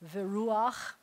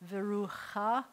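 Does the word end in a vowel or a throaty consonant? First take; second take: throaty consonant; vowel. First: The word ends on the throaty consonant after a vowel. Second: The word ends on a vowel after the throaty sound. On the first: The speaker calls it right. "you have to say veruach" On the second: The speaker calls it wrong. "instead of saying verucha"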